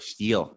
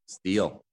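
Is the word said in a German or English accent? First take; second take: German; English. First: It is said in a German accent. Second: It is said in a plain English accent.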